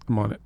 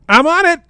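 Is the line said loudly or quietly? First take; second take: quietly; loudly. First: It is said quietly and subtly. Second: It is said loudly and animatedly.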